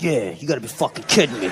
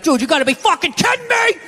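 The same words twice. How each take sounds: First: Low, grumbling dog voice; dog echoing owner. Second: High, outraged sports-fan yell; screaming at ref. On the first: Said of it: "dog was over in the corner being like". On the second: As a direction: yell at the referee on TV. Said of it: "you're screaming at the ref". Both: Retold or imitated.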